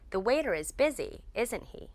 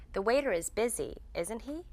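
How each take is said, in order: First: "isn't he" falling at the end; statement-like tag, "isn't he" going down; downward intonation. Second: "isn't he?" rising at the end; checking question, "isn't he" going up; upward intonation. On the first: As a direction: drop the pitch on the tag "isn't he". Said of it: "We use downward intonation". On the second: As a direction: lift the pitch on the tag "isn't he". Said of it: "We use upward intonation". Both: Shown as a demonstration.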